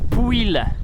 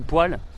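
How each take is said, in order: First: The vowel sounds like 'ooy'. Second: The vowel sounds like 'wa'.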